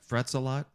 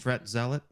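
First: The name is split as 'frets a lot'. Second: The name is split as 'fret zealot'. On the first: The speaker calls it wrong. "how would you pronounce that? Is that Frets a Lot?" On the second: The speaker calls it right. "Yeah, I'd say Fret Zealot"

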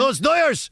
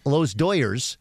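First: It is said in a put-on Chicano accent. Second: It is said in a plain white American accent.

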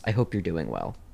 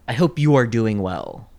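First: The words you are are contracted to you're. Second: The words you are are said in full. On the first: The speaker calls it right. "It's I hope you're doing well" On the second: The speaker calls it wrong. "no one says, I hope you are doing well. No one says that"

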